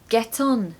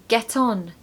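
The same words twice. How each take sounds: The two takes are said the same way.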